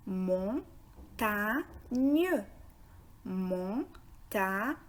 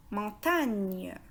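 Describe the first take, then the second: First: "Montagne" split into three syllables, mon, ta, gne. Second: Said in the usual way. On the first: Shown as a demonstration. Teacher breaks "Montagne" down for learners, syllable by syllable. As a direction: say "Montagne" with a clear pause between its three syllables. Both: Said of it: "est composé de trois syllabes".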